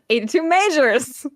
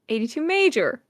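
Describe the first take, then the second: First: The name ends with an added s sound. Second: The name ends without an s sound. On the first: This is how the speakers habitually say it. The speaker calls it wrong. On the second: This is the correct name. The speaker calls it right.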